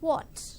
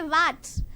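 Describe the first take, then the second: First: The first sound is said with rounded lips. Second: The first sound is said without rounded lips. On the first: The speaker calls it right. "You have to circle your lips" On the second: The speaker calls it wrong. "Don't say what"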